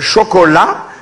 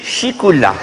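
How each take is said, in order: First: The word is said with clear 'o' vowels. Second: The word is said with 'i' and 'ou' vowels. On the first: This is how everyone else in the world says it. "dans le monde entier on dit euh" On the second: This is how people say it back home. "chez nous on dit"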